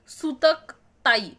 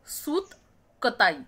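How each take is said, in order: First: The break comes after the syllables sutak. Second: The break comes after the syllable sut. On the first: It means the mourning period and an elder sister. The speaker calls it wrong. "सूतक ताई असा लिहिला तर कसं वाटेल" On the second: It means the spinning of cotton thread. The speaker calls it right. "नाही, सूत कताई"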